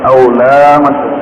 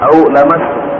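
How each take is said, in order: First: The vowel after the L is drawn out long. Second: The vowel after the L is kept short. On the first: The speaker calls it wrong. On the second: The speaker calls it right. "lam di situ tidak dibaca panjang"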